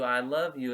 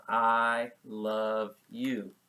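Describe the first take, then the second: First: Said in the usual way. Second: Drawn-out "I love you" while signing it; very slow "I love you". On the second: Shown as a demonstration. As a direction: stretch "I love you" out slowly with the hands. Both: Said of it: "This is how people do".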